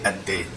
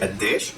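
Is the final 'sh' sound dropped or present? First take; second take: dropped; present. First: The word ends without the 'sh' sound. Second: The word ends with a clear 'sh' sound. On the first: "just without the sheen" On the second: "You could say"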